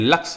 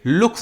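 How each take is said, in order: First: The vowel sounds like the one in 'luck'. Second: The vowel sounds like the one in 'look'. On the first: The speaker calls it right. "लुक्स नहीं है लक्ष्य है" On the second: The speaker calls it wrong. "इसको लुक्स पढ़ेगा क्योंकि यू आया है ना"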